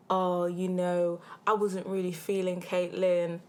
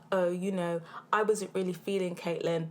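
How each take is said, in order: First: Slow, drawn-out mock smooth talker; mocking gassing quote. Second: Said in the usual way.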